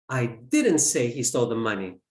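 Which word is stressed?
say. The word 'say' is stressed. It was implied, not said. "I implied it"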